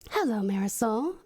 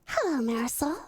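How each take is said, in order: First: It is said in a deeper voice. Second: It is said in a higher, normal voice.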